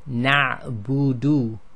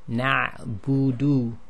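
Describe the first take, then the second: Both takes have the same delivery.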